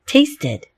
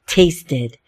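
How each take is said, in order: First: Tasted said high with the ID ending lifted; tasted, higher, ending stressed. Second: Tasted, the extra syllable ID heard; tasted with a clear final syllable. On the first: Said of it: "it really is two sounds". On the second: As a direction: sound out the ID at the end of tasted. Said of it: "Do you, do you hear that?". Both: Shown as a demonstration.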